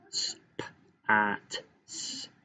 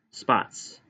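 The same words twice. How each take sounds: First: Sp-at split into soft separate sounds, S- last; tapped-out sounds. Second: Said in the usual way. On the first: Shown as a demonstration. Teacher tapping out spots, segmented. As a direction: break spots into s, p, at, s. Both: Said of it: "That's tap".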